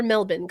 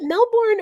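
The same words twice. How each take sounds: First: Melbourne said as MEL-bin; reduced local pronunciation. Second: Melbourne said as MEL-born; full spelled pronunciation. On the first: Host checking how to say the city's name, Melbourne as MEL-bin. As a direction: say Melbourne with a short "bin" ending. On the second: Host checking how to say the city's name, Melbourne as MEL-born. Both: Shown as a demonstration. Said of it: "is it Melbourne or Melbourne?".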